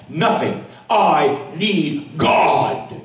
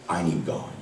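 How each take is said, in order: First: Drawn-out, very slow plea; slowly pleading "I need God". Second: Softer, hushed "I need God"; quietly confessing "I need God"; quiet plea. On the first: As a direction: stretch every word of "I need God" out slowly. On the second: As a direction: drop to a near hush on "I need God". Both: Acted. Preacher repeats his plea.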